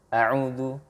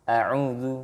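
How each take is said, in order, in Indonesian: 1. Vokal pertama dipotong sangat pendek. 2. Vokal pertama dipotong sangat pendek.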